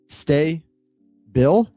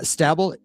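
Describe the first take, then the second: First: The first syllable sounds like 'stay'. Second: The first syllable sounds like 'stab'. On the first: "it's not" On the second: "Jeff Rascal says, uh, Stabble"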